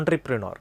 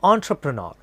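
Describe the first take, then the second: First: The second syllable sounds like 'tree'. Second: The second syllable sounds like 'tra'. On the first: The speaker calls it wrong. "ആ ട്രീ അവിടെ കൊടുക്കാറുണ്ട്" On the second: The speaker calls it right. "Actually the correct pronunciation is ഓൺ ട്ര പ്രൊ നോർ"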